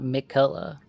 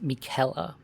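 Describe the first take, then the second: First: The middle of the name does not sound like 'Kelly'. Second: The middle of the name sounds like 'Kelly'. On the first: The speaker calls it wrong. "Not Michaela" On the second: The speaker calls it right. "It's Michaela, okay? Like Kelly"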